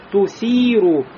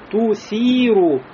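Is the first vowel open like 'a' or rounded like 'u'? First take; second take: rounded; rounded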